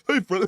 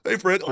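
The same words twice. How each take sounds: First: Higher, wheezing Hey Fred; mock wheezy greeting. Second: Higher, wheezy Hey Fred; wheezing smoker greeting. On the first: Co-host mimics a smoker greeting Fred, wheezing. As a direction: rasp out a smoker's hello. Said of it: "He's like". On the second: Retold or imitated. Host imitates a smoker calling to Fred, wheezing. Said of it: "It's just like that wheezing and stuff".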